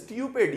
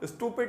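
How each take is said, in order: First: The first vowel is a 'yoo' sound. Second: The first vowel is a plain 'oo' sound. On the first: The speaker calls it right. "यू को जरा सही तरह बोलें" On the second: The speaker calls it wrong. "स्टूपिड नहीं"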